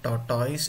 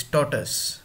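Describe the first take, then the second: First: "tortoise" with a wrong -toys ending; mispronounced tortoise. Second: "tortoise" said as TOR-tus; correct tortoise. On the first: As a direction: say "tortoise" as tor-toys, the mistaken way. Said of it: "It is not tortoise". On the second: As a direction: reduce the end of "tortoise" to a short "tus". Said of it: "it is tortoise". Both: Shown as a demonstration.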